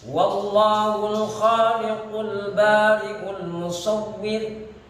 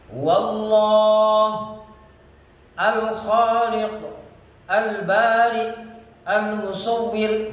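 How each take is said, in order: First: The words run together without glottal stops. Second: Each word starts with a separate glottal stop. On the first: The words are read as one connected phrase. "Tapi ketika diwasalkan maka tidak dibaca" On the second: Each word is read on its own. "Kalau dibaca satu-satu ya dibaca hamzahnya"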